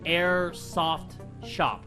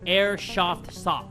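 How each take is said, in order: First: The phrase is said cleanly, every sound clear. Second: The phrase is said tongue-tied, its sounds slurred. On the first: The speaker calls it right. "I said it right that time" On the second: The speaker calls it wrong. "That's what I say"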